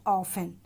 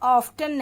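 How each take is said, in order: First: The t sound is left silent. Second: The t sound is clearly pronounced. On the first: The speaker calls it right. "इसमें टी silent रहेगा" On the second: The speaker calls it wrong. "हम इसे ऑफ्टन नहीं पढ़ेंगे"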